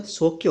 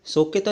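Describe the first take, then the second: First: सौख्य without the "taa" ending; correct form. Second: सौख्यता with an added "taa" ending; wrong form. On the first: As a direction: end सौख्य on "khy". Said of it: "होता है". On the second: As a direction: end सौख्यता on a long "taa". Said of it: "नहीं होता". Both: Shown as a demonstration.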